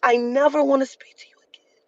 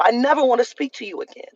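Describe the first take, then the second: First: Whispered threat. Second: Said in the usual way. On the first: Real, not acted. Telling the rude employee she is done, in a whisper. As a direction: hush it like a final promise. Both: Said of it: "I mean that".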